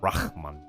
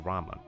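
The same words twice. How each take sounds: First: The throaty h before the m is pronounced. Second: The throaty h before the m is dropped. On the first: This is the expected pronunciation with the h sound. "not Rahman" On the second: This is how the game's characters say it. "here, they just directly say Rahman"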